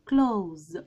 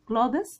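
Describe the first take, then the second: First: No th sound; the word ends in z. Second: A th sound comes before a final s. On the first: The speaker calls it right. "التي اتش اللي احنا شايفينها دي مش بتتنطق خالص" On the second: The speaker calls it wrong. "كلادس ده نطق غلط"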